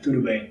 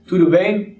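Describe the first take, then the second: First: It is said as an answer. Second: It is said as a question.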